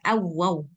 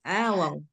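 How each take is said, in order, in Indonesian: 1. Vokal pertama diucapkan pendek. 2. Vokal pertama diucapkan panjang. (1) "Jangan awaw"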